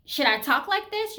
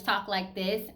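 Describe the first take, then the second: First: Higher, louder questioning voice; trying another voice. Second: Said in the usual way. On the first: Shown as a demonstration. Woman wondering how she should talk, higher voice. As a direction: try on a higher voice. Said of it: "do I have another voice?". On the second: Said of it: "I've always pretty much talked like this".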